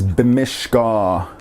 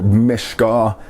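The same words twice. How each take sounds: First: "bimishka" in three slow syllables; full-vowel form. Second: "bmishka" with the first vowel dropped; local short-vowel pronunciation. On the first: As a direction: sound every vowel of "bimishka". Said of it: "I tried to use both full vowel forms". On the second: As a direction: run b straight into m in "bmishka". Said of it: "as we pronounce it around here". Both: Shown as a demonstration.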